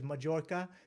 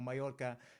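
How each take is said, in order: First: The name is said with an English J sound. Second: The name is said with the Spanish pronunciation. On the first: The speaker calls it wrong. "the worst one for me is when somebody says Majorca" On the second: The speaker calls it right. "pronounce chorizo correctly or Mallorca"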